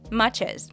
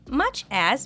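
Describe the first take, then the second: First: The ch sound runs straight into as. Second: The two words are said separately.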